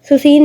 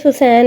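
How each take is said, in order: First: The second vowel sounds like 'ee'. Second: The second vowel sounds like 'ai'. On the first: The speaker calls it wrong. "सुसीन नहीं है" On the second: The speaker calls it right. "सुसैन है"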